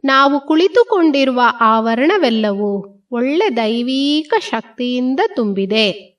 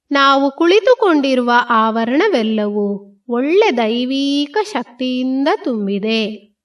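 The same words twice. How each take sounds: The two takes are said the same way.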